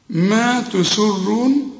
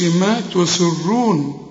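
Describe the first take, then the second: First: ما تسرون slow, light thin س; correct take. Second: ما تسرون with a heavy س; wrong take. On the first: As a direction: say ما تسرون slowly, س kept light. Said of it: "السين هنا مرققة". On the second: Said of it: "هنا ما نقولش ما تسرون". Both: Shown as a demonstration.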